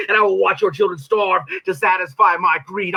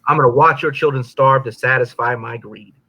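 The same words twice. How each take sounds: First: Pitched-up declaiming devil menace; spoken-word villain boast; performed devil line. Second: Said in the usual way. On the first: Acted. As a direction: hurl the threat from the stage. It's like playing a character. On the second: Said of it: "It's like playing a character".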